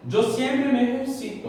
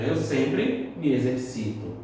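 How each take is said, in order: First: Higher Spanish "ejercito", stressed on "ci"; Spanish pronunciation. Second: Said in the usual way. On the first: Shown as a demonstration. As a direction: model "ejercito" as "eh-her-SI-to". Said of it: "Assim, igual ao português". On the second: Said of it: "igual ao português".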